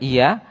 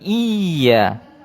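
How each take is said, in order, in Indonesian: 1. Bunyi y itu tunggal dan pendek. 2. Bunyi y itu ganda dan panjang. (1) "Bukan dibaca iya" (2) "karena ada tasjid di atas ya, maka dia iya"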